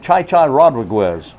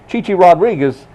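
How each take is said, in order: First: The first name is said with an 'eye' vowel. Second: The first name is said with an 'ee' vowel.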